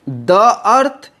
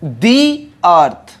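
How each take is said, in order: First: The word 'the' has a short 'uh' vowel. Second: The word 'the' has a long 'ee' vowel. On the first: "द earth या फिर दी अर्थ" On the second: "इसी वजह से इसको हम पढ़ेंगे दी।"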